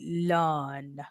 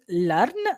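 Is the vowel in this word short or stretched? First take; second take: stretched; short. First: The vowel is stretched with a back-tongue R. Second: The vowel is short and not drawn out. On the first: "stretching the initial half and pulling your tongue back for the R" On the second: "instead of saying learn"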